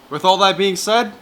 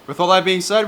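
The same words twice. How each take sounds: First: It is said with more emphasis and energy. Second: It is said flat, in a monotone. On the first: "More emphasis" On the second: "What a monotone goodbye"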